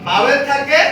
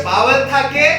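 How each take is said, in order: Both takes have the same delivery.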